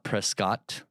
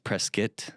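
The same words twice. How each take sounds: First: The second syllable has a full 'o' vowel. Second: The second syllable has a short 'eh' vowel. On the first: The speaker calls it wrong. "it's not Prescott" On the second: The speaker calls it right. "There's an O there, not a eh"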